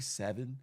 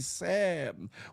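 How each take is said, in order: First: It is said in a standard, non-DC accent. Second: It is said in a local DC accent. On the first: "We don't say seven" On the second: "You know how we say in D C"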